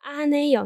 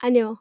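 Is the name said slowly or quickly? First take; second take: slowly; quickly. First: It is said slowly, three syllables apart. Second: It is said quickly, syllables run together.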